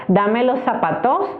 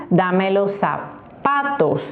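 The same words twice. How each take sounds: First: "zapatos" stressed on the last syllable, TOS, slowly and rising; falsche Endbetonung. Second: "zapatos" slowed right down, stress on the middle PA; Betonung auf PA. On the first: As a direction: wrongly push the final TOS of "zapatos" upward. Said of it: "con el tips que les doy". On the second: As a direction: stretch the stressed PA in "zapatos", then fall. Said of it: "Sí". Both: Shown as a demonstration.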